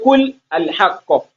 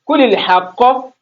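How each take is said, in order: First: An extra 'a' vowel is sounded before 'l'. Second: The words link with no extra vowel. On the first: The speaker calls it wrong. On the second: The speaker calls it right.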